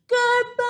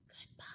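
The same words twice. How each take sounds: First: It is said very loudly. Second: It is said very quietly.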